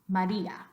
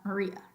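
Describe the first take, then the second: First: Both A vowels are a full 'ah' sound. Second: Both A vowels are a weak 'uh' sound. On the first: "let's say ah, ah" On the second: "both of those A's in English are pronounced uh"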